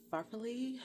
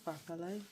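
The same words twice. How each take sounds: First: "farfalle" said as FAR-fuh-lee, anglicized; "farfalle" with English vowels, lee ending; unsure pronunciation. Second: "farfalle" said as far-FAH-leh, Italian ending; "farfalle" with an eh ending, rising; Italian-style attempt. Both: Shown as a demonstration. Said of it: "I don't know how to say it".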